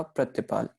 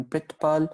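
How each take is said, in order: First: प्रतिपाल spoken "prat-i-pal", i after the t; pronunciation demo. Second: प्रतिपाल spoken "prit-pal", i right after pr; pronunciation demo. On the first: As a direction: say प्रतिपाल as pra-ti-pal, three syllables. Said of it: "और second शब्द का". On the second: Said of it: "पहले शब्द का उच्चारण". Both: Shown as a demonstration.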